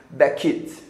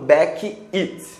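First: The two words are joined into one flowing unit. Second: The two words are said separately, not joined. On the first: The speaker calls it right. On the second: The speaker calls it wrong.

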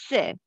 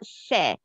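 First: The vowel is short and reduced. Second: The vowel is a full, clear e. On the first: The speaker calls it right. "For sure, the sound is S" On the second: The speaker calls it wrong. "not SE. Because I didn't put the sum of symbol on the top of E"

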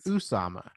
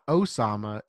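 First: The name begins with an 'oo' vowel. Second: The name begins with an 'oh' vowel. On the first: The speaker calls it right. "it's Usama" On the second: The speaker calls it wrong. "his name is not Osama"

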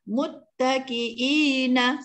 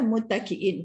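First: The word ends with a short a vowel. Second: The word ends on n with no vowel. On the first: The reader continues without stopping. "Kalau kita wasal" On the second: The reader stops at this word. "Kalau kita waqaf jadi ma'ril sukunlah"

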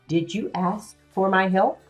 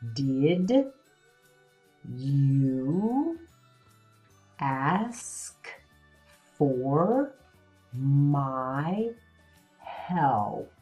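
First: It flows smoothly like normal talking. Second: Each word is said separately and slowly.

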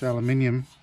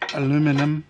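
First: The word is said the non-American way. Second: The word is said the American way. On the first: The speaker calls it right. "this is just aluminium" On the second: The speaker calls it wrong. "Or as you Americans would say"

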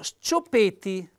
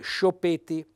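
First: The s and c are said as separate sounds. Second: The s and c merge into one sh sound. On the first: The speaker calls it right. "per far sì che il lettore legga le due lettere separate" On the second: The speaker calls it wrong. "verrebbe spontaneo leggere scioppeti"

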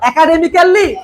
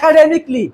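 First: A vowel is heard between k and l. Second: No vowel is heard between k and l. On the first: The speaker calls it wrong. "একাডেমিক্যালি না একাডেমিকলি?" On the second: The speaker calls it right. "যত কেলি আছে তার উচ্চারণ হবে ক্লি"

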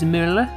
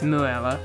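First: The name is pronounced in a German way. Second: The name is pronounced in an English way. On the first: "the way you say it in German is Müller" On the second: "how I say his name as Müller"

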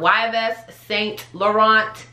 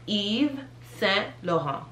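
First: The final T sounds are pronounced. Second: The final T sounds are silent. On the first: The speaker calls it wrong. "It's not Yves Saint Laurent" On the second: The speaker calls it right. "all the T's are silent"

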